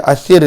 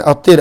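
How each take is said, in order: First: The middle consonant is a th sound. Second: The middle consonant is a plain t sound. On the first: The speaker calls it right. "Athir dengan sa" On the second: The speaker calls it wrong. "bukan Atir"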